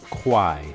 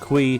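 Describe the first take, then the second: First: The name ends in an 'eye' sound. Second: The name ends in an 'ee' sound. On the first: The speaker calls it right. "the actual name is pronounced Kwai. Just think of Y" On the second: The speaker calls it wrong. "I used to call it Kui"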